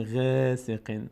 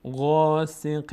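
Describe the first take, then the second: First: غاسق with a light, thin غا; the wrong, unfilled غاسق; thin wrong ghayn. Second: غاسق with a full, open, heavy غا; full heavy ghayn. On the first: (غاسق نادرست و نازک) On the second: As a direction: open the mouth upward on غاسق. (غاسق با غین پر) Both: Shown as a demonstration.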